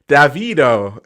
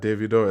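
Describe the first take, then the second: First: The name is said with an American pronunciation. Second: The name is said with a Nigerian pronunciation. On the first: "That's that's what Americans say all the time" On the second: "the Nigerian way"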